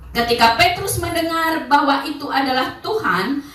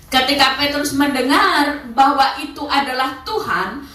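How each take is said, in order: No difference in how they are said.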